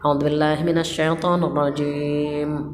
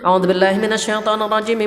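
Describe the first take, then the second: First: It is recited in a quiet voice. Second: It is recited in a loud voice.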